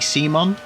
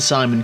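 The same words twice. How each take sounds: First: The name is said with a German pronunciation. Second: The name is said with an English pronunciation. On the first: "I know you're German, so would that be Simon?" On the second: "I say that as a British person"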